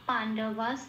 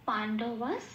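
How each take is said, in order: The two takes are said the same way.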